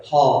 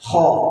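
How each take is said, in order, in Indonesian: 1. Bunyinya lemah, tanpa ada kekasaran. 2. Bunyinya sangat dilebih-lebihkan. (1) "Kalau dikurang-kurangin banget itu kayak gini" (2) "Kalau dilebih-lebihin nanti jadinya gini"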